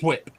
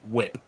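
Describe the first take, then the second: First: It begins with a breathy hw sound. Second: It begins with a plain w sound. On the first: The speaker calls it wrong. "You're putting too much enunciation on the on the H" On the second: The speaker calls it right. "It's whip"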